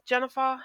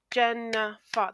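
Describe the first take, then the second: First: Said in the usual way. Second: "Jennifer" slowly split into three beats; syllable by syllable. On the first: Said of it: "So my name". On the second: Shown as a demonstration. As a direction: clap out "Jennifer" as Jen-ni-fer. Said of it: "That's three syllables in my name".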